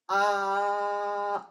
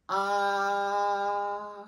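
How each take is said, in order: First: The pitch stays level and flat. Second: The pitch stays level and flat.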